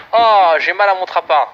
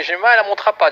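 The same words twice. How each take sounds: First: Slow, hammed-up groan of defeat; slow comic moaning over the loss; drawn-out lament. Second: Said in the usual way. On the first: Real, not acted. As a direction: stretch it out like a mock wail. Laments losing the match.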